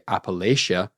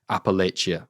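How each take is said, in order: First: The middle consonant is a soft sh sound. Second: The middle consonant is a harder sound. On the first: This is the British pronunciation. "the British pronunciation ... the softer sh" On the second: This is the more common American pronunciation. "apparently is the more common American one"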